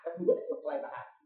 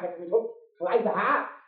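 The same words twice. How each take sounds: First: Softly whispered repeat of the phrase; hushed whispered echo. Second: Said in the usual way. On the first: Shown as a demonstration. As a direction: drop to a breathy whisper and echo it.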